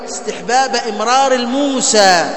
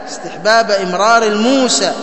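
Both takes have the same delivery.

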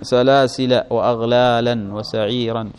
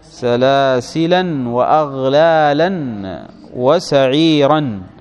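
First: The first word ends without an n sound. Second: The first word ends with an added n sound. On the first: The listed words do not match in form. The speaker calls it wrong. "هذا ما هو منون وهذا منون" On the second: All the listed words match in form. The speaker calls it right. "نونت لمناسبة ما قبلها"

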